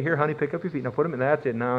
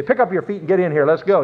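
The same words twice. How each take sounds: First: Soft, tender coaxing, acted out; gentle, doting. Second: Brisk, curt husband's order, acted out; impatient. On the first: Courting husband gently helps his honey into the car, doting. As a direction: help honey in softly and tenderly. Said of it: "really gently and say". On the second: Husband now rushes wife into the car, mock impatient.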